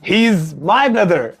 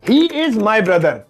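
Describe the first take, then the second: First: He is is shortened into one syllable. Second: He is is said as two full words. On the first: The speaker calls it right. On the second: The speaker calls it wrong.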